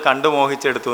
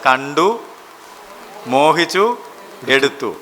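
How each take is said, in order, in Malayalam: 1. വാക്കുകൾ ഇടവേളയില്ലാതെ ഒന്നിച്ചു ചേർന്നു പറയുന്നു. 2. ഓരോ വാക്കിനും ഊന്നൽ നൽകി, അവയ്ക്കിടയിൽ ഇടവേള നൽകുന്നു. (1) "സാധാരണ വായിക്കുന്ന ആളിൽ കണ്ടു മോഹിച്ചെടുത്തു എന്നാണ് വായിക്കാറ്" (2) "ഞാനത് മൂന്ന് പദങ്ങളും ഊന്നിയാണ് പറയാറ്"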